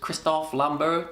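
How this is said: The name is pronounced the French way.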